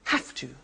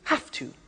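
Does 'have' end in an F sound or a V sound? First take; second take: F sound; F sound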